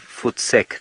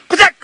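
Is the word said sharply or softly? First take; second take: softly; sharply. First: It is said softly and drawn out. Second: It is said sharply as one syllable.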